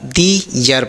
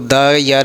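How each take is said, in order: First: 'The' is said with a long 'thee' vowel. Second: 'The' is said with a short 'thuh' vowel. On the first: The speaker calls it right. "दी यर पढ़ेंगे" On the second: The speaker calls it wrong. "द यर नहीं अब बोलना पड़ेगा"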